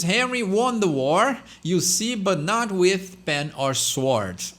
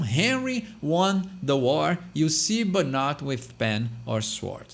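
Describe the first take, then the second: First: Slow, careful English tongue twister; tongue twister read out. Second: Slow, deliberate reading; slow down and say each word clearly; demonstrating slow, careful delivery for learners. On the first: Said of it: "aqui a gente tem um trava-língua". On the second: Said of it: "fala mais devagar". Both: Shown as a demonstration.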